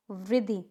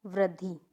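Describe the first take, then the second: First: वृद्धि said vri-ddhi, short i after r; first form shown. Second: वृद्धि said vra-ddhee, lower; second form shown. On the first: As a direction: demonstrate वृद्धि as vriddhi. Wrong then right form shown. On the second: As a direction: model वृद्धि lower with a drawn last vowel. Second form of the same word. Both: Shown as a demonstration.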